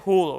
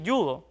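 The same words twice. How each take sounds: First: The word starts with a throaty h sound. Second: The word starts with a y sound. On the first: This matches how the word is written. "por su grafía, o sea, por cómo está escrita, debería decirse judo" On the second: This is the customary way people say it. "está muy arraigado que digamos así judo"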